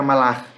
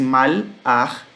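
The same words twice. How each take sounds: First: "malar" as one word; quick unbroken "malar"; joined form. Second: "mal-ar" slowly in two parts; deliberate split "mal... ar"; separated form. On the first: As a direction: say "malar" run together, ma-LAR. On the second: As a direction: stretch "mal", pause, then "ar". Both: Shown as a demonstration. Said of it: "se junta e fica malar".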